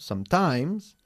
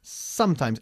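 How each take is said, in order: First: The stress is on the second syllable. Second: The stress is on the first syllable. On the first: The speaker calls it wrong. "not sometimes" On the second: The speaker calls it right. "enfatizando la primera sílaba"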